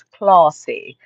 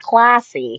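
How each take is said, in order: First: "classy" with a long British ah, like "clah-see"; British pronunciation. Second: "classy" with the American short a; American pronunciation. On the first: Retold or imitated. Host imitating her UK cousin, drawn-out British "classy". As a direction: draw out "classy" slowly with a broad British a. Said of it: "When she speaks with her accent". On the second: Shown as a demonstration. Host showing how her cousin doesn't say it, American "classy". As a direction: say "classy" the American way, pushed out loud. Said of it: "Not classy, she sounds classy".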